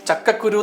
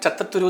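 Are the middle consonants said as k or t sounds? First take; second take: k; t. First: The middle consonants are clear k sounds. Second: The middle consonants are replaced by t sounds. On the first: The speaker calls it right. "ഈ ചക്കക്കുരു എന്ന് പറഞ്ഞൊക്കെ" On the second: The speaker calls it wrong. "ഞാൻ ചത്തത്തുരു എന്ന് പറയുള്ളൂ. ക എന്നുള്ള അക്ഷരം കിട്ടില്ല"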